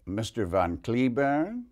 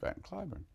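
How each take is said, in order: First: The name is said with a Russian-style pronunciation. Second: The name is said with the American pronunciation. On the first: "she said" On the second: "in this country we pronounce it Van Cliburn"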